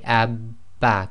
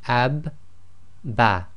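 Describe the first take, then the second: First: The syllables run together without any break. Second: There is a break between the two syllables. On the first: The speaker calls it right. "You have to say" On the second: The speaker calls it wrong. "you don't leave a gap. So you can't say"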